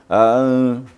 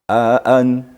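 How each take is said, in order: First: The second glottal stop is softened and blurred. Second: The second glottal stop is articulated clearly. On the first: The speaker calls it wrong. "jangan aan. Itu kurang jelas" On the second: The speaker calls it right. "Ini harus di harus ditahqiqkan"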